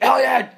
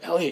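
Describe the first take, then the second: First: The name is screamed loudly. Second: The name is said softly and warmly. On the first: The speaker is scolding but still loves him. "Even when I scream it" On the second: The speaker is expressing love. "He knows the way I say it"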